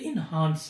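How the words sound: The second vowel sounds like the one in 'father'. The speaker calls it right. "Correct pronunciation is इनहांस, क्योंकि हमारे पाकिस्तान में British accent को follow किया जाता है"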